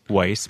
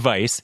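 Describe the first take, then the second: First: The word begins with a W sound. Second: The word begins with a V sound. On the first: "It's spelled with a W" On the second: "but you say vice"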